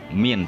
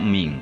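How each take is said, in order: First: The final n is pronounced clearly. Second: The word ends in a nasal ng sound. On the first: The speaker calls it right. "nunnya jelas" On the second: The speaker calls it wrong. "tidak ming"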